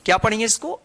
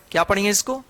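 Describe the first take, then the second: No difference in how they are said.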